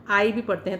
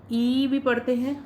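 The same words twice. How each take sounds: First: आई said as the full ai diphthong, like eye; letter i read as eye. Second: ई said as a plain i vowel, not the diphthong; letter i read as ee. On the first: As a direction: glide आई from a to i, as in kind. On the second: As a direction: read ई as a pure short i. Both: Shown as a demonstration. Teacher contrasting two readings of the letter i for students. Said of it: "आई को ई भी पढ़ते हैं".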